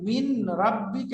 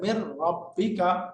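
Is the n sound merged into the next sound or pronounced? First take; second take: pronounced; merged. First: The n sound is pronounced separately before r. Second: The n sound merges into a doubled r. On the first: "মিন রাব্বিকা এরকম করা যাবে" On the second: "নুনটা রার সাথে ইদগাম হয়ে যাবে"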